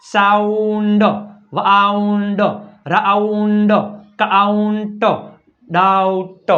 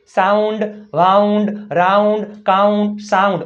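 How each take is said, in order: First: "સાઉન્ડ, વાઉન્ડ" very slow, AU held long; stretched AU sound. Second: "સાઉન્ડ, વાઉન્ડ" as whole words, evenly listed; AU recap. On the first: Teacher demonstrating O plus U, "રાઉન્ડ" drawn right out. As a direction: sound out "કાઉન્ટ, ડાઉટ" with final consonant released apart. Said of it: "ઓ યુ, શું થાય ઉચ્ચાર?". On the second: Teacher checking the rule, "સાઉન્ડ" said whole and crisp. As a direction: say "રાઉન્ડ, કાઉન્ટ" with clear AU, less stretched. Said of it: "બધા એમાં આવ આવતું છે". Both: Shown as a demonstration.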